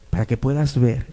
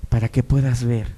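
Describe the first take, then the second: No difference in how they are said.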